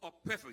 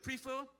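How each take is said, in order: First: "prefer" as PREF-er; short-E pronunciation. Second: "prefer" as PREE-fer, pitched high; long-E pronunciation. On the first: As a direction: say "prefer" with a short E, stressed first syllable. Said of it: "Vincentians here prefer". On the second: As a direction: say "prefer" with a long EE in the first syllable. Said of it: "what is the word, prefer". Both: Retold or imitated.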